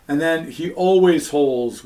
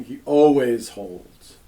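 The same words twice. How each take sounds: First: "always" stressed in a falling tune. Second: "always" stressed, slow, falling. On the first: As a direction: hit "always" to show a habit. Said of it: "which is habitual". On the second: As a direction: dwell slowly on "always" to model habit. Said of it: "that would be the habitual form". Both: Shown as a demonstration.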